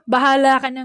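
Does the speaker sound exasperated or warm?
exasperated. It is said in an exasperated, annoyed tone. The parent has not been convinced and disapproves. "With that tone, you have not successfully convinced your parent"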